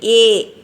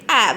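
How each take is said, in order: First: The vowel is a long a sound. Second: The vowel is a short a sound. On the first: The speaker calls it right. "We are pronouncing only A" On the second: The speaker calls it wrong. "we are not pronouncing A as A"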